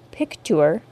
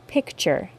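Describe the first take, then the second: First: A 't' then a 'y' sound is heard. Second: A single 'ch' sound is heard. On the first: This is the older pronunciation. "was pronounced with a T sound followed by a long U sound" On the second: This is the current normal pronunciation. "Can you hear the CH sound"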